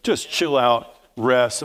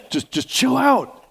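First: Said in the usual way. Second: High, slow, drawn-out plea to just chill out; emphatic chill out. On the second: Shown as a demonstration. Preacher urging the congregation to relax, high and drawn-out. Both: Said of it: "he didn't say it like that".

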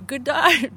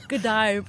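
First: Australian "Good day" pushed higher and louder; hammed Australian accent. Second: A tentative Australian "Good day", barely shifted; first try at an Australian accent; attempted Australian accent. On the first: Asked for an Australian accent, a bolder hammed try. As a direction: lean into a bad Australian accent. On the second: Asked for an Australian accent, first timid try. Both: Shown as a demonstration. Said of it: "how's your Australian accent?".

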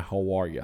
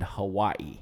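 First: "Hawaii" with an added R, like "Hawarya"; grandmother's Southern pronunciation. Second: Said in the usual way. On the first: Retold or imitated. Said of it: "my grandmother". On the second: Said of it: "we dropped the R's".

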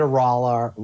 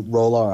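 First: R'hllor said with an open "rah" first syllable; RAH-lor pronunciation. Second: R'hllor said with a long "oh" first syllable; ROLE-or pronunciation. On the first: Quoting the priestess's prayer to her god, R'hllor said as "RAH-lor". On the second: Trying the god's name another way, R'hllor said as "ROLE-or". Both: Shown as a demonstration. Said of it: "or however you pronounce".

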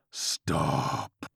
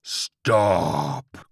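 First: Low, drawn-out demon dog; demonic Chihuahua cry. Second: Loud, drawn-out demon dog bellow; demonic Chihuahua cry. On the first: Chihuahua halts George's attack, low demonic command. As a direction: stretch it out in a deep creature voice. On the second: Chihuahua halts George's attack, loud demonic cry. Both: A narrator's reading. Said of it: "cried the Chihuahua".

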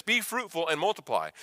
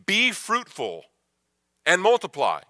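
First: Said in the usual way. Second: Booming command. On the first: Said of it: "You do this". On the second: Retold or imitated. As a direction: issue it as an order from God. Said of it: "he issues it as a command".

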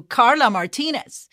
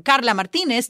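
First: Carla Martinez in an English accent; English-style Carla Martinez; English pronunciation. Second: Carla Martinez in a Spanish accent; Spanish-style Carla Martinez; Spanish pronunciation. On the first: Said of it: "to Carla Martinez". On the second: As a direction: tap the R's in Carla Martinez. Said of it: "I went from". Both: Shown as a demonstration.

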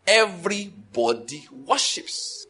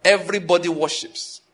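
First: "Everybody worships" stretched out word by word; "Everybody worships", very slow and deliberate; slow emphasis. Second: Firm "Everybody worships" at a normal pace; "Everybody worships", said firmly in one go; emphatic repetition. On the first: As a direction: draw out each syllable of "Everybody worships". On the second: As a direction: drive home "Everybody worships" without stretching it. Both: Real, not acted. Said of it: "That is what I'm emphasizing".

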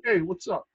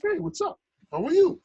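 First: Retold curbside "what's up"; casual street greeting. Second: High, cheerful hello to a newcomer; sincere friendly greeting. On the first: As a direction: toss out a brief, casual greeting. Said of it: "You naturally assumed it was hard". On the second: Retold or imitated. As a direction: greet a new face with open friendliness. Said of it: "he meant it really".

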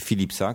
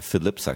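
First: Said in the usual way. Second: Philipsa in an American accent, Fil-ep-sa. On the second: Shown as a demonstration. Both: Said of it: "z amerykańskim akcentem Philipsa".

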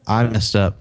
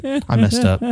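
First: Said in the usual way. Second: Dismayed realization. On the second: Retold or imitated. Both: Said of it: "Saying all sorts of stuff in my head".

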